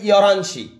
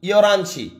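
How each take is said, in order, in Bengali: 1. শব্দ দুটো একসাথে মিশে যায়, আর h বাদ পড়ে। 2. শব্দ দুটো একসাথে মিশে যায়, আর h বাদ পড়ে।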